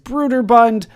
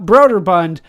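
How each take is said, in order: First: The first vowel differs from a plain 'o'. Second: The first vowel is a plain 'o' sound. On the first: This is how the company wants the name said. The speaker calls it right. "that is how I am told they would like that pronounced" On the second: This is how the speaker said the name as a child. The speaker calls it wrong. "the way that I always pronounced it as a kid"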